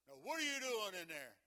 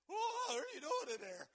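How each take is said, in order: First: It is said in a deep, macho voice. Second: It is said in a weak, shaky voice.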